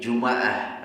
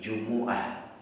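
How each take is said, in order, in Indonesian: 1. Huruf m diikuti vokal a. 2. Huruf m diikuti vokal u. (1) "dibaca fathah mimnya" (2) "dibaca dhammah mimnya"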